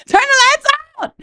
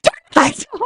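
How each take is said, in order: First: High shriek, a little louder still; panicked shriek. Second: High, panicked cry for the lights; panicked shriek. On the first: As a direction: scream for the lights, higher and louder. Panicked shout repeated. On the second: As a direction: shriek it out in the dark, much higher. Panicked shout in the dark. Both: Retold or imitated.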